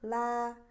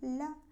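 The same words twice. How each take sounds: First: The L sound is light but full. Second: The L sound is very thin and weak. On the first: The speaker calls it right. "melebar saja normal" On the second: The speaker calls it wrong. "tipis sekali, kurang kuat"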